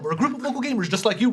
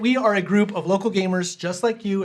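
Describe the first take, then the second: First: It is said very fast. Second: It is said more slowly.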